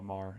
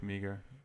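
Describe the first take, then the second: First: The name is said as one syllable. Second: The name is said as two syllables. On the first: This is how the name is actually said. "Twitter is at real Liam uh, Mar M E A G H E R" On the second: This is how the spelling looks like it should sound. "Looks like Meager"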